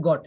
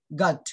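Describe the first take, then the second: First: GOT said "গট", rounded o vowel; common mispronunciation. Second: GOT said "গাট", open aa vowel; correct pronunciation. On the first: Teacher shows what we usually say, common rounded গট. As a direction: say গট with a Bengali rounded o. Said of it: "আমরা বলি গট". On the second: Teacher models the word for the class, correct pronunciation of গাট. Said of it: "এটা কি হবে". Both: Shown as a demonstration.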